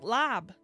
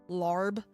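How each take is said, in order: First: It is said without an American accent. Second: It is said with an American accent. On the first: "I think that's lab" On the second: "what a lot of Americans say it"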